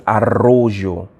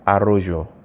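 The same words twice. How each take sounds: First: Arroyo with an extremely rough RR; rough double R. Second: Arroyo with a light, single R. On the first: Teacher contrasts spellings for students, arroyo with a rough RR. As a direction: hit the double R hard in arroyo. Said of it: "when you hear the R sound extremely rough". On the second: Teacher contrasts spellings for students, arroyo with a light single R. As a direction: say arroyo without the rough double R. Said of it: "So if it was the other one". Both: Shown as a demonstration.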